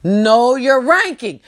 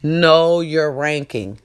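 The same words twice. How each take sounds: First: "ranking" stressed, slow; slow emphatic repeat. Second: Know your ranking, slow and weighty; slow emphatic advice. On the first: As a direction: hit "ranking" hard and slow. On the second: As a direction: lean on "know", drag it out. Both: Shown as a demonstration.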